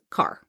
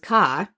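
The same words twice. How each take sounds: First: It is said in a San Francisco accent. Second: It is said in a Boston accent. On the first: "somebody in San Francisco that says car" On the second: "the way a person from Boston says car"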